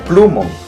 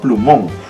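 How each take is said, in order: First: The stress is on the first syllable. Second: The stress is on the last syllable. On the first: The speaker calls it wrong. "si tú crees que acá está la fuerza de voz, tú dirías plumón" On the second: The speaker calls it right. "yo digo plumón"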